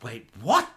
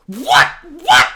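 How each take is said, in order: First: Low, puzzled double take rising at the end; baffled, as if just catching on; confused disbelief. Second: Loud, high, stabbed-out shock; escalating disbelief. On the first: Acts out viewer's confused reaction. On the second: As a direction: yelp it in utter bafflement. Acts out escalating viewer disbelief. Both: Retold or imitated.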